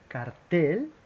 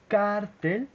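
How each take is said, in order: First: The stress is on the second syllable. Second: The stress is on the first syllable. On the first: A poster. "si on fait l'accent sur la E" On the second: A criminal organization. "avec accent sur la A"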